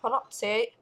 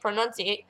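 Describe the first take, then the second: First: It is said in an imitated British accent. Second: It is said in the speaker's ordinary non-British accent. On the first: "kind of a British accent, so they kind of go pronunciate" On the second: "like I say pronunciate"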